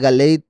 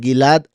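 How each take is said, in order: First: The last syllable is said with an 'ei' vowel. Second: The last syllable is said with a plain 'a' vowel. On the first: This is the form used at the end of a verse. "a Galeid porque está apareciendo al final del verso" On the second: This is the ordinary form of the name. "cambia la pronunciación de Gilad"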